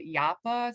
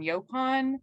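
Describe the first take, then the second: First: The word starts with a 'ya' sound. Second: The word starts with a 'yo' sound. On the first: This follows the word's original language. The speaker calls it right. "we pronounce it Yapa, so there's no yo sound in there" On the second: This is the common everyday pronunciation. The speaker calls it wrong. "I don't like the pronunciation Yopan, uh, even though that is the most common pronunciation"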